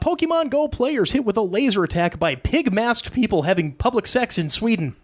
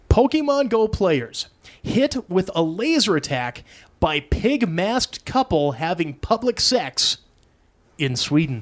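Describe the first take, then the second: First: It is read at a fast pace. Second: It is read at a slower pace.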